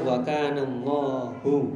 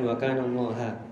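First: The final word ends with a 'u' vowel. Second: The final word ends with an 'a' vowel. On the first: The speaker calls it right. "Ingat-ingat saja wa kana Allahu" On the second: The speaker calls it wrong. "bukan wa kana Allaha"

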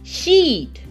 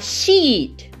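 Both takes have the same delivery.

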